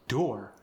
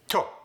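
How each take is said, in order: First: The word begins with a soft D sound. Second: The word begins with a T sound. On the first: "if I say door" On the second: "someone from Korea is going to say to. The D was just converted to a T sound"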